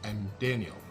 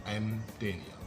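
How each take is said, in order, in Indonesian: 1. 'I am' disingkat menjadi satu suku kata. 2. 'I am' disingkat menjadi satu suku kata.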